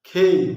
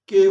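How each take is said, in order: First: The k sound has a puff of breath. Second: The k sound is plain, without a breath. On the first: The speaker calls it right. "সেটাকে এখন বলা হয় খেই" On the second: The speaker calls it wrong. "তারপরে কে বলতাম"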